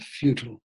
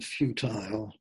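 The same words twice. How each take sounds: First: It is said in an American accent. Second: It is said in a British accent. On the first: "American pronunciation" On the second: "English pronunciation"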